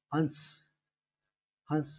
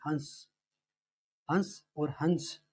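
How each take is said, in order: First: हंस with a nasalized vowel and no न sound; no n in the middle. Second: हंस slowly, with a light न before the s; a light n sound. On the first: Teacher showing students the nasalized हंस. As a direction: say हंस through the nose, no n. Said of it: "बीच में न नहीं आया कहीं भी". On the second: Teacher showing students the slight n in हंस. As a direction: let a soft n slip in before s in हंस. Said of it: "इसमें हल्का सा न आता है". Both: Shown as a demonstration.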